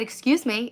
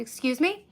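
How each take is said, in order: First: Firm falling excuse me; firmer. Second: Light rising excuse me; polite question. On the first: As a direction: say it firmer, losing patience. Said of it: "now it's just fucking purely personal". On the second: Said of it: "Ignored me". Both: Retold or imitated.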